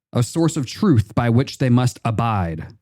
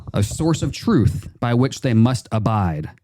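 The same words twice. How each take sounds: No difference in how they are said.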